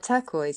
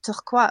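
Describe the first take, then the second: First: The word is said in a plain English way. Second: The word is said in a French-sounding way. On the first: "I say turquoise" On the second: "he's making it sound French"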